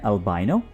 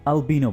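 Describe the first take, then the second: First: The middle syllable sounds like 'bye'. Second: The middle syllable sounds like 'bee'. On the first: "American English में इनको बोला जाता है" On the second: "British English में अल्बिनो बोला जाता है"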